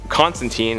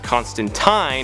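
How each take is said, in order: First: The name is said in its newer form. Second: The name is said in its older form. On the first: This is how most adaptations say it. "The pronunciation of Constantine has become way more popular" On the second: This is how the source material says it. "technically it's pronounced Constantine in the original source material"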